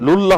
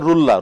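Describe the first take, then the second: First: The syllable begins with an L sound. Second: The syllable begins with an R sound. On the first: The speaker calls it right. "লুল্লাহ হবে" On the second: The speaker calls it wrong. "না রুল্লাহ"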